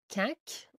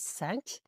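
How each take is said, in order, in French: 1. Le mot commence par un son k dur. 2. Le mot commence par un son s doux. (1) "On ne dit pas quinque" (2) "on dit cinq"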